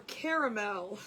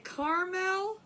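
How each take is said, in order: First: Caramel as CARE-a-mel, middle A sounded; three-syllable caramel. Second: Caramel as CAR-mel, no middle A; two-syllable caramel. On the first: Host polling viewers on the word, caramel as CARE-a-mel. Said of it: "is there an A or no A?". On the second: Host polling viewers on the word, caramel as CAR-mel. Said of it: "Do we say caramel or caramel?". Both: Shown as a demonstration.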